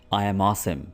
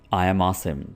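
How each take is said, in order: The two takes are said the same way.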